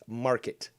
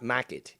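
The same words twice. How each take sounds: First: The R sound in the word is pronounced. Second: The R sound in the word is dropped. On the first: The speaker calls it right. "It's market" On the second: The speaker calls it wrong. "There's there's an R in market. It's it's not market"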